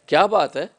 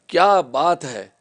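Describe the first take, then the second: First: It is said as a question. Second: It is said admiringly, in praise.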